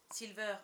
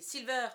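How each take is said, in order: First: Said in the usual way. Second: Louder, higher repeated call; raised summoning shout. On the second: A narrator's reading. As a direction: call the name out insistently. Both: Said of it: "appelle-t-il".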